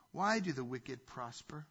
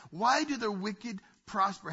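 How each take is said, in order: First: Said in the usual way. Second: Job's plea. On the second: Retold or imitated. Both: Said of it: "See, Job is saying".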